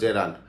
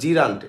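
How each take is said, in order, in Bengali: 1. প্রথম সিলেবলে 'eh' স্বরধ্বনি আছে। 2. প্রথম সিলেবলে 'ee' স্বরধ্বনি আছে। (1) "উচ্চারণ জে রান্ট" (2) "আপনারা বলে জিরান্ট"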